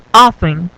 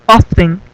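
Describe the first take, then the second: First: "often" said as OFF-en, no T; silent T. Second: "often" said wrongly as OF-TEN, T sounded; pronounced T. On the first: Teacher giving students the correct form, "often" without T. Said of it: "es muda, no se pronuncia". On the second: Teacher warning students what never to say, "often" with T. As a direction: say "often" with an audible T in the middle. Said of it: "nunca digan often". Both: Shown as a demonstration.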